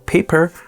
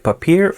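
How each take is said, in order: First: It is said like the English word paper. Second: It is said differently from the English word paper. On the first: This is the official pronunciation. "it's supposed to be called Paper" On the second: This is the speaker's own preferred pronunciation. "I like Papier, so I'm just going to call it Papier"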